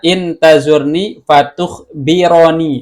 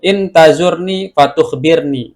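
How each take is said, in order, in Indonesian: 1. Huruf r pada kata kerja kedua diikuti vokal. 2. Huruf r pada kata kerja kedua tidak memiliki vokal. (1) "Bisa juga dibaca" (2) "boleh dibaca uh, sukun ya"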